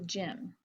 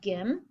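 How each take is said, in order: First: The word begins with a soft J sound. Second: The word begins with a hard G sound. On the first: The speaker calls it right. "I say" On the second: The speaker calls it wrong. "I don't say"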